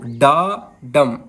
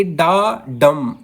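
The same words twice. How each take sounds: First: Slow डा डम, weight on the first syllable डा; stressed डा, then unstressed डम. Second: डम given weight after an unstressed डा; stress on डम. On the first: Teacher showing students a trochee, stress on डा. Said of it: "डा बड़ा क्यों है और डम छोटा". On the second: Teacher showing students an iamb, stress on डम. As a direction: lean on the second syllable, डम. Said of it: "इसके ऊपर हम जोर दे के बोलेंगे". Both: Shown as a demonstration.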